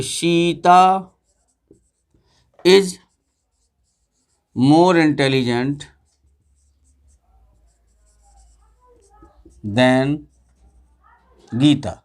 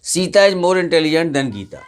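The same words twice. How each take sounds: First: Very slow, long gaps between each word; word-by-word dictation. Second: Whole sentence read through. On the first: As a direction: dictate so the class can write it down. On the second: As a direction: read it in one smooth run at a moderate pace. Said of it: "कि Sita". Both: Shown as a demonstration.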